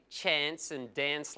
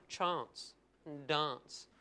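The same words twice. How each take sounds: First: "chance" and "dance" with the short A of "cat"; usual Australian vowel. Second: "chance" and "dance" with long "ah", slow and soft; Adelaide pronunciation. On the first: Comic contrasting Adelaide speech, short-A "chance and dance". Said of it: "they don't say chance and dance". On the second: Comic mimicking Adelaide free settlers, long-AH "chance and dance". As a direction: draw out chahnce and dahnce. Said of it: "They say chance and dance". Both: Shown as a demonstration.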